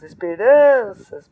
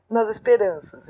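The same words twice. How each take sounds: First: "esperanças" with RAN stretched long and loud; stressed tonic syllable. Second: Said in the usual way. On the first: Shown as a demonstration. Teacher showing where the tonic falls, exaggerated stress on RAN. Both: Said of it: "Qual é a tônica?".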